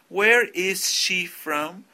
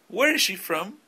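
First: Each word is said separately, not linked. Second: The words run together smoothly, linked. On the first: The speaker calls it wrong. "No digan, ... No suena natural" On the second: The speaker calls it right. "supongo que están haciendo el word linking"

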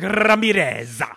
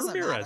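First: It is over-enunciated with an exaggerated Spanish accent. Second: It is said plainly in an ordinary English accent. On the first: The speaker calls it wrong. "It was like over enunciating" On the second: The speaker calls it right. "Just say Ramirez"

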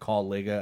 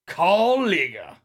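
First: It is said in a plain voice. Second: It is said with a put-on accent.

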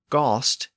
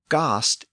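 First: The vowel is in the middle. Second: The vowel is at its lowest. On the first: This is the Middle English form. "Then it became ghost in Middle English" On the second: This is the Old English form. "It was ghost in Old English"

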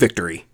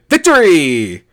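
First: It is said flatly, without extra energy. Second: It is said loudly with excited energy.

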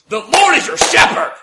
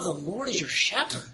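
First: It is said in a harsh, scolding tone. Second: It is said in a calm, gentle tone. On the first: The listeners are being scolded. The speaker calls it wrong. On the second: The listeners are being reassured. The speaker calls it right.

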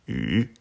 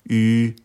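First: The pitch rises from middle to high. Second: The pitch stays high and level. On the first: "deuxième ton" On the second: "Au premier ton, le U se dit"

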